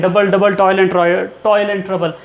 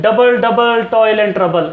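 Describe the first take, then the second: First: "double double toil and trouble" tapped out slowly, stress on toil; a slow second run through the beat; repeating the line to show its music; rhythmic recital. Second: Slow chant, "double double" hit hard; chanted, beat out each stressed syllable slowly; rhythmic chant. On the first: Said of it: "musical सा लग रहा है ना". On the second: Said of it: "अब देखिए कोई line का एंड नहीं है". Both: Shown as a demonstration.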